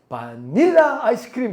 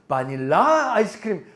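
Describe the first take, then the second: First: The stress is on the middle syllable. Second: The stress is on the last syllable. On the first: "중간에 있나 보다" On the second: "끝에 있나 보다"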